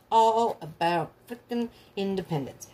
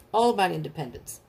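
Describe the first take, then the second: First: Slow, drawn-out "All about frickin' independence"; drawn-out emphasis. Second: Said in the usual way. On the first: Real, not acted. Repeats it for emphasis.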